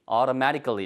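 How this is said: The t is soft, like a quick d. "들리는 발음은 auto 해서 automatically, automatically 이렇게 들려요. 모음사에 끼면 부드럽게 가고 싶은 게 미국 영어의 특징이죠"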